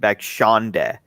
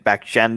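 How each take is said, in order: First: The middle syllable sounds like 'Sean'. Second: The middle syllable does not sound like 'Sean'. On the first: The speaker calls it wrong. "I just don't like when people say" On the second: The speaker calls it right. "once people get the hang of it, Bakshenda is not that hard"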